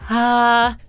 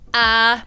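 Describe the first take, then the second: First: It starts breathy, with escaping air. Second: It starts with a hard glottal attack.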